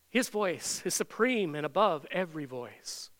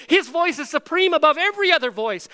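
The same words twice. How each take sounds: First: Said in the usual way. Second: High, very loud preaching shout; top-of-lungs yell. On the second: Shown as a demonstration. Preacher declares Jesus' supreme voice to the congregation, shouting. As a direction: proclaim it over thundering water. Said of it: "had to yell at the top of our lungs".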